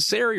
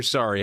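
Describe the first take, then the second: First: Sari said SAIR-ee; first pronunciation option. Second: Sari said SAH-ree; second pronunciation option. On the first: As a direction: say Sari with an "air" first syllable. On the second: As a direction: say Sari to rhyme with "starry". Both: Shown as a demonstration. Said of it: "Is it Sari or Sari?".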